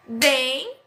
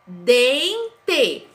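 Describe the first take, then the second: First: Said in the usual way. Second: Dente split slowly into two syllables; syllables clapped. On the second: Shown as a demonstration. Teacher claps out Dente for pupils. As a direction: clap out Dente. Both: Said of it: "eu falei pausadamente".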